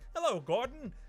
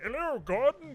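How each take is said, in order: First: The voice is at its normal, higher pitch. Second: The voice is pitched down, sounding lower. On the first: "the iconic voice is like" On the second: "doing the same voice, but they like pitched it down"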